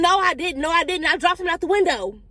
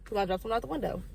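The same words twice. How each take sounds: First: High, louder protest of innocence; insistent denial. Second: Quiet admission. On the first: Child denying the accusation to mama, high insistent protest. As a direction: deny it hard, pitched well up. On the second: Child privately admitting what really happened, quiet aside. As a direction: drop the volume and own up. Quiet confession of the same words. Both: Retold or imitated.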